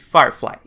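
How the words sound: The final vowel is short, ending in a clipped 'ee'. The speaker is from Boston. "com um som um pouco mais curto, com esse Y do final que parece mais um I"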